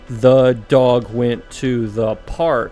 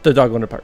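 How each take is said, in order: First: It is said slowly, word by word. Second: It is said quickly, all at once.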